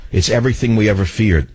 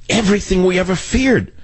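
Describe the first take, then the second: First: Said in the usual way. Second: EVERYTHING and FEARED pitched way up in indignation; high-pitched indignant emphasis on every word of "Everything we ever feared"; emphatic repeat. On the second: Real, not acted.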